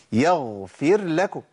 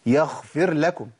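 First: يغفر drawn out with a voiced, held gh; correct ghayn. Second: يغفر with the gh turned into a kh; common mistake. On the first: Teacher giving an example with fa, carefully articulated. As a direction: say يغفر لكم slowly, ghayn fully voiced. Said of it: "هي يغفر ولا يغفر؟". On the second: Teacher showing what is often heard, deliberately mispronounced. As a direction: devoice the ghayn in يغفر to kh. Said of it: "بنسمع كتير". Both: Shown as a demonstration.

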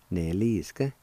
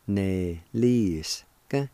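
First: Said in the usual way. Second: Neliska slowly drawn out; slow pronunciation. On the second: Shown as a demonstration. Teacher showing how neliska goes, slow and measured. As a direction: stretch each syllable of neliska. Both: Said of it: "it's pronounced like this".

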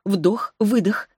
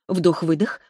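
First: Stretched out slowly; вдох-выдох drawn out slowly, like a breath; slow breathing count. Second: Said in the usual way. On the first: A narrator's reading.

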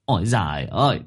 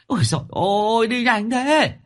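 First: Said in the usual way. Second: High, loud whining cry of despair; frightened wail. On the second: Acted. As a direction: shriek it high and loud, a scared lame man left behind. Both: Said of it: "sợ mà gào lên".

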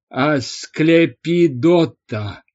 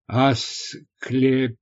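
First: "Асклепидота" slow, firm, syllable by syllable; crisply enunciated. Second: "Асклепиз" slow and broken, trailing off unfinished; faltering. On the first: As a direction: hammer out every syllable of "Асклепидота". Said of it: "отчеканил отец Меркурий". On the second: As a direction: stumble through "Асклепиз" piece by piece. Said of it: "замялся Корней". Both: A narrator's reading.

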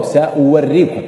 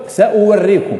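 First: سأوريكم slow, with the written waw voiced; spelled-out reading. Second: سأوريكم with the waw sounded, saw-wurikum; read as written. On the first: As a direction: stretch سأوريكم and sound the waw. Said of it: "لكن موجودة واو". (سأوريكم بنطق الواو ببطء) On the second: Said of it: "لو قرأتها كما هي مكتوبة". (سأوريكم بالواو كما هي مكتوبة) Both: Shown as a demonstration.

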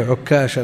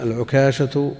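First: عكاشة with a u after the ayn and a doubled k; doubled kaf. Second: العكاشة with a short, undoubled k; single light kaf. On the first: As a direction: hold the k long in عكاشة. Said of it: "بضم المهملة وتشديد الكاف". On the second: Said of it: "بالتخفيف". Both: Shown as a demonstration.

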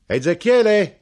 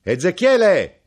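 First: Loud high call across the shop; knife-grinder calling into the dark shop; shouted name. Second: Slow, loud, high call; calling the name again, longer; drawn-out shout. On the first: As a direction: yell the name to be heard inside. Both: Acted. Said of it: "gridò".

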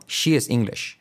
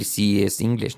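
First: "she is English" with a full hushing SH in SHE; careful sh in SHE and at the end of English; clear sh. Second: "she is English" with SHE as 'see'; faulty s for sh. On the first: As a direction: make both SH sounds strong. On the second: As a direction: mistaken plain s in SHE and English. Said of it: "No podemos decir". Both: Shown as a demonstration.

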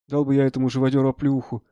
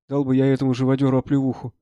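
The two takes are said the same way.

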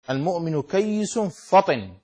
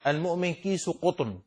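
First: Slow كيس فطن with doubled ya and a fa; correct reading. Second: كيس قطن misread as kis qutn. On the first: Shown as a demonstration. Teacher reading the hadith to students, correct kayyis fatin in كيس فطن. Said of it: "كيس بتجديد الياء". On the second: Retold or imitated. Teacher quoting a reader's blunder, misread kis qutn in كيس قطن. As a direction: read كيس with a long i, قطن with qaf. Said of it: "بعضهم قرأها".

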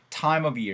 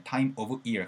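First: "time of year" run together as "timeovyear"; "time of year" fully linked; smoothly linked. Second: "time of year" said word by word with breaks; choppy separated "time of year"; choppy, not linked. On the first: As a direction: blend "time of year" into one flowing word. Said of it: "이렇게 부드럽게 연결하시면 되겠네요". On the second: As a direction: split "time", "of", "year" apart stiffly. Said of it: "가지 말고". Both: Shown as a demonstration.

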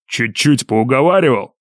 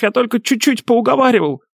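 First: Slow, menacing echo of the excuse; drawn-out threatening question; through clenched teeth. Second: High, whining excuse; pitiful falsetto self-defence; bleating wail. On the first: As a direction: repeat it slowly in disbelieving scorn. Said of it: "процедил друг". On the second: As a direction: protest in a cowardly bleat. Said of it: "мерзкий блеющий голос снова заголосил". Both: A narrator's reading.

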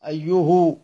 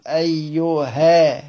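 First: أيه said "ayyuhu", ending in u; damma on the ha. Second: أيها drawn out slowly as "ayyu-haa"; fatha on the ha. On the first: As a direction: close أيه on u, matching the u before it. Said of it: "قراءة الهاء بالضم". (أيه بضم الهاء على المجاور) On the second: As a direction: end أيها on a long open aa. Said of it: "وقرأ بفتحها على الأصل". (أيها بفتح الهاء ومدها) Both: Shown as a demonstration.

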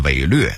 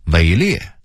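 First: 伪劣 as wěilüè; Beijing reading. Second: Said in the usual way. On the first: Shown as a demonstration. Narrator contrasting word lists, Beijing reading. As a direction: say 劣 in 伪劣 as lüè, not liè. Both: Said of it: "北京话念伪劣".

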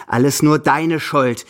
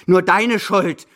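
First: Louder, slow, accusing; angry blame. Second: Higher, louder and very slow; angrier blame. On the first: Grandmother blaming her companion for the loss, angrily. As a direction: lay the blame on him, deliberately. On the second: Grandmother repeating the blame at her companion, more furious. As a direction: hammer the blame home harder. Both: Acted. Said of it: "fällt sie wütend über mich her".

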